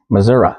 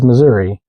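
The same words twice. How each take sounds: First: It uses the pronunciation heard among locals. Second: It uses the widespread common pronunciation. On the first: "The locals say Missouri" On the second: "basically everybody else says Missouri"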